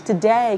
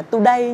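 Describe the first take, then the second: First: "today" with a reduced schwa first syllable; unstressed "to" in "today", gliding into day; correct vowel demo. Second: "today" with a full oo in the first syllable; both syllables of "today" given full vowels; mispronunciation demo. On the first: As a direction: model "today" as tuh-DAY. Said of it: "nhớ là today". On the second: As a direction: show the wrong "today" as too-day. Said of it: "không đọc là today nhé". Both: Shown as a demonstration.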